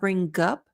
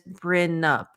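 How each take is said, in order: First: The G is fully and hard linked to up. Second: The G is dropped and N links to up. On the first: "it's going to sound too hard. So it's not bring up" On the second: "if you completely drop it, it's going to connect as brin up"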